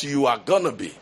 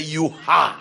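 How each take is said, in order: First: Said in the usual way. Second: "You are," with a firm fall on are; stress on are. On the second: Retold or imitated. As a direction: say "You are," as a settled fact, leaning on are. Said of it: "That is a very definite statement".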